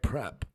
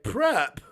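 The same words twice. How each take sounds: First: It is said quietly. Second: It is said loudly.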